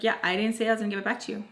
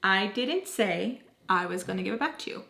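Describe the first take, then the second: First: Quick, offhand retold reply; quick dismissal. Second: Deliberate, word-by-word retold reply. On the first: Phone holder refusing to hand it back, said quickly. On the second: Same reply repeated slowly after "What?.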